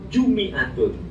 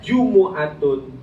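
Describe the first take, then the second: First: The m is followed by an i vowel. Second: The m is followed by a u vowel. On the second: "dengan mendomahkan mim"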